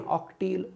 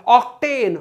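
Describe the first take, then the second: First: Said in the usual way. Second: octane high, falling at the end; punchy classroom call; called-out drill. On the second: Shown as a demonstration. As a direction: call out octane to lead a chant. Chants alkane against alkyl name.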